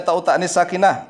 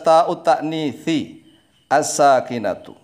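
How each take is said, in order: First: The words are run together with endings dropped. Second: The words are read clearly with full endings. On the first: The speaker calls it wrong. "Jangan langsung dibaca ta'ut ta'nits sakinah, nggak jelas begitu" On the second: The speaker calls it right. "Tapi dibaca yang jelas"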